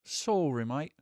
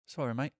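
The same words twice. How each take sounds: First: Put-on British accent on mate; a mock British apology; playful British accent. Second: Put-on lighter British accent on sorry mate; mock British accent again. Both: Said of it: "talking like this".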